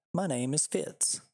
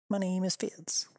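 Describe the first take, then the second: First: Lightly voiced dog, slow and a bit higher; a mild stab at the dog speaking. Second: Higher, cartoon little-dog voice; squeaky dog voice. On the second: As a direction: give the tiny dog a squeaky voice. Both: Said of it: "said twice as the dog".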